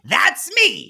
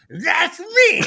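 First: A put-on nasal voice, spoken clearly. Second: A put-on nasal voice, muffled as if by a thumb. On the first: "in his Gilbert Godfrey voice" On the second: "He'll do it with his thumb in his mouth"

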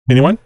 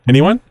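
The two takes are said the same way.

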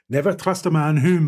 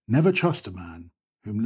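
First: It is said in a Glaswegian accent. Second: It is said in the speaker's normal accent. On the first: The speaker calls it right. "I can do it in Glaswegian" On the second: The speaker calls it wrong. "You can't do a Billy Connolly in your normal voice"

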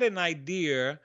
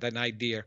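First: It is said in a New York accent. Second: It is said in a neutral accent.

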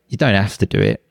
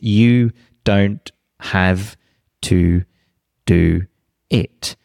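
First: 'Have to' is reduced to 'hafta' with an f. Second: 'Have to' is said fully with a v sound. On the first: This is how it is said in real, natural speech. "But in the jungle, that would be, ... you've almost got like a f sound there" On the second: This is the careful, textbook way of saying it. "That would be the greenhouse version"

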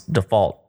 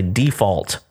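First: It is said with a standard pronunciation. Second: It is said with a Southern pronunciation. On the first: This is how it is said when talking about loans. "anytime I've heard this in conversation on a loan, it's always default" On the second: This is the everyday regional way of saying it. "I'm from the South, Haley, and most of the time we say default"

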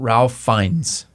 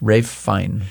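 First: The first name sounds like 'Ralph' with an L. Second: The first name sounds like 'Rafe' without an L. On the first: The speaker calls it wrong. "It's not Ralph Fiennes" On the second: The speaker calls it right. "It's definitely Rafe"

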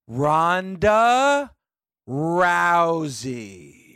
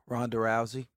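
First: It is said louder and more slowly. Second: It is said at normal loudness and pace.

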